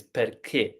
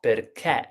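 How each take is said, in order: First: Tight, closed last vowel on "perché"; closed final e. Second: Wide, open last vowel on "perché"; wrongly open final e. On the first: Teacher correcting to the acute accent sound, closed e. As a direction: say "perché" ending in a closed e, near kay without the glide. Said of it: "this is the same". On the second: Teacher showing the wrong way for this rare case, open e. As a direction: say "perché" ending in an open e, as in bet. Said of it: "which is not perché". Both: Shown as a demonstration.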